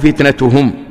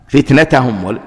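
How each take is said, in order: First: The vowel after the t is 'u'. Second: The vowel after the t is 'a'. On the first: The word is the subject of the verb. "وفتنتهم بالرفع ثم لم تكن فتنتهم" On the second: The word is the predicate of the verb. "فتنتهم على أنه خبر كان"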